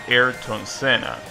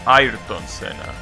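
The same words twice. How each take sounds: First: The name is pronounced the usual English way. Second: The name is pronounced the native-language way. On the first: The speaker calls it wrong. "you're not supposed to pronounce it Ayrton Senna" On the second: The speaker calls it right. "as expected, you're supposed to pronounce it Ayrton Senna"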